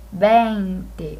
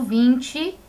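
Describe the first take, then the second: First: "vinte" dito à espanhola, com B suave no início e E aberto: beinte; "vinte" com V como B suave, sem chiar o T; veinte em espanhol. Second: "vinte" dito à portuguesa, com "tch" no T: vintchi; "vinte" com V de lábio e T chiado, vintchi; vinte em português. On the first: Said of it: "a pronúncia do V é um B suave". (pronúncia espanhola de "vinte" como veinte) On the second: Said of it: "como em português". (pronúncia brasileira de "vinte") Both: Shown as a demonstration.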